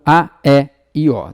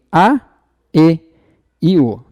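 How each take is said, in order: First: E and O said open, as "é" and "ó"; open vowel names. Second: E and O said closed, as "ê" and "ô"; closed vowel names. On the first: Teacher offers the other reading of the endings, E and O open. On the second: Teacher lists the accented endings for students, E and O closed. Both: Shown as a demonstration. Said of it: "Se a pronúncia for uma pronúncia mais fechada".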